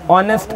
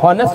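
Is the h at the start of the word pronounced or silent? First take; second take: silent; pronounced. First: The word begins with a vowel, no h sound. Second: The word begins with an audible h sound. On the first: "उसमें एच होता है silent, एच silent, ऑनेस्ट बोलते हैं" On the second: "हॉनेस्ट होना चाहिए ना"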